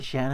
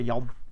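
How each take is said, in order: First: The name is said with an American pronunciation. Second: The name is said with a Dutch pronunciation. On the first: "how do you say it in America?" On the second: "I pronounce it like Jan is a Dutch name"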